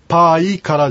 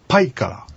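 First: The i is a full separate vowel. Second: The i is shortened into a quick y glide. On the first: The speaker calls it wrong. "パイからじゃなくて" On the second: The speaker calls it right. "ちょっと縮めた発音"

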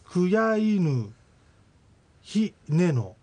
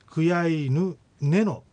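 First: A full syllable with an h sound precedes neno. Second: Nothing comes between kuyaynu and neno. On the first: "クヤイヌヒネノが" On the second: "さらにそのイが落ちてクヤイヌネノと発音された"

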